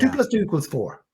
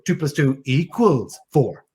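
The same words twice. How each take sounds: First: The words are short and clipped, without emotion. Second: The words are stretched out and drawn long.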